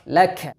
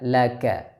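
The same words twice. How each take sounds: First: The k is released with a strong rush of air. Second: The k is released with only slight air. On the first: The speaker calls it wrong. "jangan dibaca ... Aliran nafasnya sangat deras" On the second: The speaker calls it right. "dialirkan sedikit saja"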